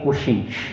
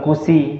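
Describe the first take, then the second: First: The middle consonant is a sh sound. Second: The middle consonant is a plain s sound. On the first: The speaker calls it right. "tapi kushi. Lidah tengahnya naik" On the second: The speaker calls it wrong. "Bukan kusi"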